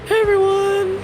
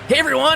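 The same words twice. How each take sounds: First: It is said in a put-on girlish voice. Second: It is said in a cartoon hedgehog voice. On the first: "You don't think I have the ability to just change my voice?" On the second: "I'll just do my impression of Sonic"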